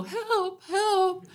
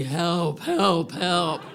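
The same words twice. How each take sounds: First: High, small cry for help; a weak high yelp for help; timid help. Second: Calling for help. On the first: Stranded woman shows the call that won't work, high. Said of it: "I couldn't go". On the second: Stranded woman shows the cattle-call help she needed. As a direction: call out from the chest. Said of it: "It was gonna have to be". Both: Shown as a demonstration.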